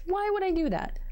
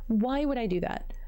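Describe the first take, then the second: First: Pitched way up in disbelief at herself; asking herself in disbelief why she ignores problems, high and incredulous; incredulous self-question. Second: Said in the usual way. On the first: Real, not acted. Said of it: "repeated self-question, first take". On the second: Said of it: "repeated self-question, second take".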